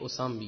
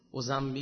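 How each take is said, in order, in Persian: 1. صامت وسط صدای s است. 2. صامت وسط صدای z است.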